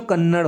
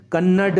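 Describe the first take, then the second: First: कन्नड़ ending in a flapped retroflex r; कन्नड़ with dotted ड़ sound; correct flapped ending. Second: कन्नड़ ending in a hard retroflex d; कन्नड़ with undotted ड sound; wrong hard-d ending. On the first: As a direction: flick the tongue on the last sound of कन्नड़. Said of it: "होता है". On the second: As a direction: say कन्नड़ with a stopped D, no flap. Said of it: "नहीं होता बच्चों". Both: Shown as a demonstration.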